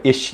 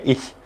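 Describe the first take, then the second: First: "ish" with a plain English sh; "ish" with sh instead of German ch; closed-mouth sh. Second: "ish" said as German "ich", soft hissed ch; "ish" ending in the German ch of "ich"; German ch, tongue back. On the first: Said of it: "close your mouth and go". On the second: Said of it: "You have to keep, like, your tongue back". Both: Shown as a demonstration.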